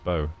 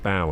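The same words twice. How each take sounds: First: The vowel rhymes with go. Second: The vowel rhymes with cow. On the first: It names a ribbon tied in loops. "Like a ribbon bow" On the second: It names the front of a ship. "Oh, cow. Okay, it's the bow of the ship then"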